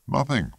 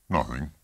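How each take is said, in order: First: Sharply higher, falling dismissal; insistent denial. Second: Said in the usual way. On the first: A narrator's reading. Husband pressed by his wife, insistently denying it. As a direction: pitch it high and drop, shutting down the question.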